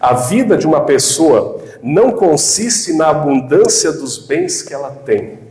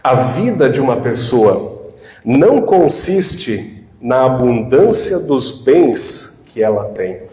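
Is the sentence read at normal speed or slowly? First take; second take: normal; slowly. First: It is read at a normal pace. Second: It is read slowly, with more pauses.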